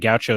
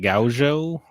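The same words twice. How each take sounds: First: The word is said with an American English pronunciation. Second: The word is said with a Portuguese pronunciation. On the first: "Gaucho is how we would American English it" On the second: "I think it's like Gaucho, Gaucho, because it's Portuguese, because it's Brazilian"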